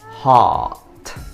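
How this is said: It is said with a British accent. "Yang pertama yaitu versi U K"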